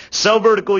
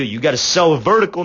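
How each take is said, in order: First: "Sell vertical" punched higher and louder, the coaching point hammered home; emphatic repeat. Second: Said in the usual way. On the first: Shown as a demonstration. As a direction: hit "vertical" hard, pitch up and louder on "Sell".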